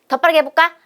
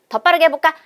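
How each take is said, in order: The two takes are said the same way.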